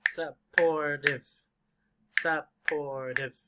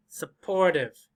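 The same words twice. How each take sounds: First: Supportive slowly split as sup-por-tive; syllable by syllable. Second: Said in the usual way. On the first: Shown as a demonstration. Teacher counts syllables for learners, supportive said syllable by syllable. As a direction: break supportive into three separate beats. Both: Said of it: "how many syllables do you hear?".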